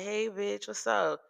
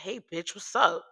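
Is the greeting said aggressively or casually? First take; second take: casual; aggressive. First: The greeting sounds relaxed and friendly. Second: The greeting sounds forceful and hostile. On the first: It is a harmless, friendly greeting. The speaker calls it right. "I could say it, that's cool" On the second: It is meant as an insult. The speaker calls it wrong. "now you're putting that little oomph in there"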